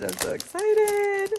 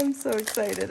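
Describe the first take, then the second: First: High, louder thrilled squeal; giddy high-pitched excitement; excited. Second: Said in the usual way. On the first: Real, not acted. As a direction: squeal it out with delight.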